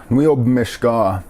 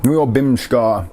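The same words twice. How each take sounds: First: "bmishka" with the first vowel dropped; dialect pronunciation. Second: "bimshka" with the vowel between b and m; shifted little vowel. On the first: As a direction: run b and m together in "bmishka", stretched out slowly. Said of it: "how you pronounce it". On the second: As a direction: say "bimshka" slowly in two beats, bim-shka. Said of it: "Emphasis changes around on those little". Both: Shown as a demonstration.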